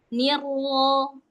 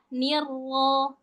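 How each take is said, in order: No difference in how they are said.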